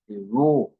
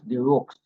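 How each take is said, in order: First: The name ends with a vowel sound. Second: The name ends with a ks sound. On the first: The speaker calls it right. "It is French, and it is pronounced the roux" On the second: The speaker calls it wrong. "It is not pronounced the rooks"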